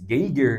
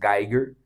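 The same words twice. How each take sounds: First: Geiger is read as spelled, Portuguese-style. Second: Geiger is given a German pronunciation. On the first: The speaker calls it wrong. "então não escreve-se Geiger" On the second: The speaker calls it right. "Mas pronuncia-se Geiger"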